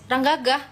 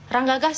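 The two takes are said the same way.

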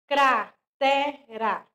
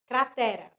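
First: Cratera drawn out very slowly, syllable by syllable; slow modelling of Cratera for children; slow syllable demo. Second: Said in the usual way. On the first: Shown as a demonstration. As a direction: stretch Cratera so the kids hear each sound. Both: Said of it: "word modelled then repeated".

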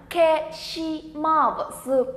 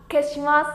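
First: "Keshimasu" drawn out very slowly, each syllable apart. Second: Said in the usual way. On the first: Shown as a demonstration. Teacher introducing word number two to learners, syllable by syllable. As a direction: stretch every syllable of "Keshimasu".

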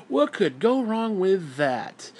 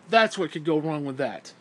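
First: Slow, drawn-out sarcastic question. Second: Matter-of-fact, scornful answer; pointed answer. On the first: Acted. Ranter jeers at trusting big corporations, slow and sarcastic. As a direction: stretch it out in mock innocence. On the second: Real, not acted. Ranter answers his own question for Christians, bluntly. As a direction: land it as the blunt payoff.

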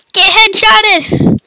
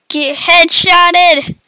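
First: Slow high taunt. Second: Slow taunt. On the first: Taunt repeated, higher voice. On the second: Taunting after kill. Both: Acted.

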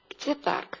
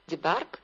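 First: Said in the usual way. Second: Где парк with the voice rising sharply on парк; echo-question intonation. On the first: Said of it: "那反问句就要用到调型三". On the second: Shown as a demonstration. Teacher echoing the question to buy thinking time, rising on парк. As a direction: stress парк and lift it into a question. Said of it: "调心在最后一个词上面".

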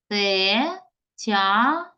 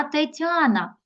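First: "Тетяна" very slowly in three pieces, Те, тя, на; syllable by syllable. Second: Said in the usual way. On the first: Shown as a demonstration. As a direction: break "Тетяна" into separate syllables with clear pauses. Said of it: "з вами перенести таким чином". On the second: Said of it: "Можемо з вами перенести таким чином".

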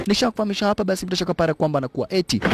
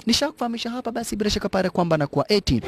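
No difference in how they are said.

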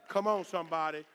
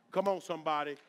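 Both takes have the same delivery.

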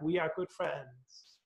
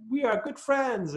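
First: Put-on slow, soft echo of the boy's words; faint echo from far off. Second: Put-on high, pleased child's voice; a boy glad to make a friend; mild childish delight; happy little boy. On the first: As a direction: let it drift back from the valley. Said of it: "the voice came back". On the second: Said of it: "he was very happy about that".

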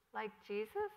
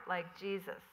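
First: "Like Jesus?" asked with a rising tune, lightly voiced child; puzzled echo. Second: "like Jesus" said as a settled statement, falling at the end. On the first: Little girl echoes her mother, puzzled rising question. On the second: Acted. Mother explains to her daughter, falling statement. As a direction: close on "Jesus" with a falling tune. Rosanna answers the child.

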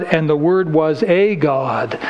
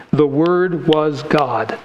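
First: Slow, leaning on the little word a before God; mock the wrong reading, pressing a God; stress on a. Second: Slow and weighty, The Word was God; correct reading stressed. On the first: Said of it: "And they would say". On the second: Shown as a demonstration. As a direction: state the true reading slowly, leaning on Word. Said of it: "that is the correct translation".

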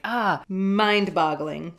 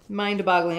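First: Mock American accent. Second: Said in the usual way. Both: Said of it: "What are American accents like?".

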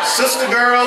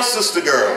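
First: Raised call. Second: Said in the usual way. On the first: Shown as a demonstration. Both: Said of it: "name called twice, rising then falling".

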